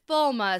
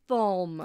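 First: The name is said with two syllables. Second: The name is said with one syllable. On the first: This is how readers of the books say it. "we pronounce it Falma" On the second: This is how the show says it. "in the show, this city is called Falm"

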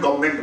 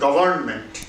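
First: The word is said in a shortened, reduced form. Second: The word is said in its full form. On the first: "actually সংক্ষেপে বলে, উচ্চারণে গভর্নমেন্ট বলে" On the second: "আসলে উচ্চারণটা হচ্ছে"

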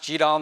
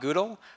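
First: The word does not begin like Google. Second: The word begins with a sound like Google. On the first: The speaker calls it right. "in fact, pronounced GDAL" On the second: The speaker calls it wrong. "not GDAL"

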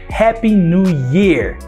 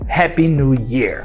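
First: The last word sounds like 'ear', without 'y'. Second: The last word starts with a clear 'y' sound. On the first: It wishes someone happy new ears. The speaker calls it wrong. "Feliz orelhas novas" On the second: It wishes someone a happy new year. The speaker calls it right. "Não, Feliz Ano Novo"

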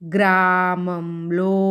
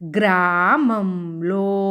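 Both takes have the same delivery.

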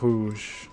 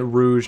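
First: The R is a rolled French R. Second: The R is a plain English R. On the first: "instead of Rouge" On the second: "I'm calling it Rouge now"

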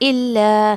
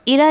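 First: The l sound is held and doubled. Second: The l sound is short and single. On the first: The speaker calls it right. "लाम की आवाज़ दो मरतबा निकालना है इल्ला ऐसे" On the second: The speaker calls it wrong. "इला नहीं पढ़ना है आपको"

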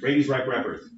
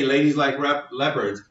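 First: The l sounds blur toward an r sound. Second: The l sounds are clear English l sounds. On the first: A learner without the r-l boundary says it. The speaker calls it wrong. "I heard you, ladies like leopards, exact same thing" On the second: A native English speaker says it. The speaker calls it right. "you could say ladies like leopards"

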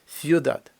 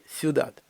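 The two takes are said the same way.

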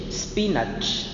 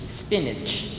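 First: It is said in a Philippine English accent. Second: It is said in an American English accent. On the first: "Philippine English" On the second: "American English"

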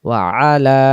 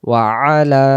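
The two takes are said the same way.

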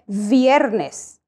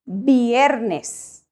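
First: It starts with an English-style V sound. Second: It starts with a B-like sound. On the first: The speaker calls it wrong. "we do not say viernes" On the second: The speaker calls it right. "we say viernes"

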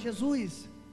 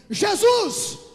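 First: It is said softly and calmly. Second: It is shouted loudly.

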